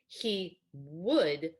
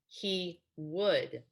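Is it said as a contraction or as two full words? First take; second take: full words; full words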